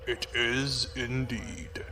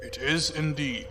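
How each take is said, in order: First: Softer, much slower, heavy confirmation; grave slow echo of himself; slow grim murmur. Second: Said in the usual way. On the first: Acted. Officer repeats confirmation quietly.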